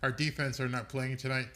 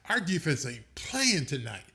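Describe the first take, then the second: First: It is read flatly, without street-style emphasis. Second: It is said in an emphatic, slangy street style. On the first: The defense is doing a poor job. "if I just read it" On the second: The defense is dominating and shutting everyone down. "if I go street with it"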